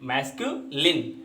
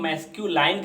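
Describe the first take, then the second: First: The last syllable is a short 'lin'. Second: The last syllable rhymes with 'line'. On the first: The speaker calls it right. "हम इसको कहेंगे मैस्क्यूलिन" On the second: The speaker calls it wrong. "कभी कभी हम इसके उच्चारण में गलतियां करते हैं। इसको हम मैस्क्यूलाइन कह देते हैं"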